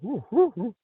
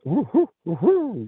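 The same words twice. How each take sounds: First: Very high falsetto owl hoots. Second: High, rising owl hoots, the last one way up. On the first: Retelling how the call began, high falsetto owl hoots. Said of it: "It started out that". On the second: Describing the owl sound to the host, high hooting owl imitation. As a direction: hoot like a barred owl, climbing into falsetto. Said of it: "how a barred owl has that". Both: Retold or imitated.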